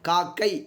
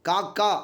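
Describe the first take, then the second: First: It is said in the formal written form. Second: It is said in the colloquial spoken form. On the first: This is written usage. "எழுத்து வழக்கு சொல்" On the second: This is everyday spoken usage. "பேச்சு வழக்கு சொல்"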